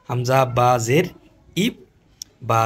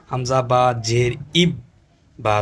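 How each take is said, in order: Both takes have the same delivery.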